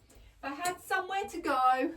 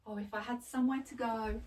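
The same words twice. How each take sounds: First: Dream aloud about a night out; lifted, yearning repeat; wistful dreamy sigh. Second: Said in the usual way. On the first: Acted.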